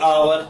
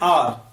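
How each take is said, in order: First: No h sound, but still two syllables. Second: No h sound, one syllable like 'R'. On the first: The speaker calls it wrong. "कई बोलेंगे आवर" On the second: The speaker calls it right. "इसका सही उच्चारण है English का आर"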